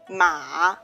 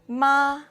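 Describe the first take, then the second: First: The pitch dips low then rises. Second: The pitch stays high and level. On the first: "it's a falling rising tone" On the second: "The first tone is high and flat"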